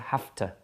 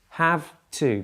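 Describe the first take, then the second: First: The words are flattened together into one reduced unit. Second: Both words are said fully and separately.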